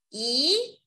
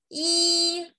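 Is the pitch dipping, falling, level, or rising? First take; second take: rising; level. First: The pitch rises from middle to high. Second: The pitch stays high and level.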